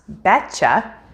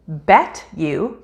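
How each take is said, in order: First: The word 'you' is reduced to a 'cha' sound. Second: The word 'you' is said fully and separately.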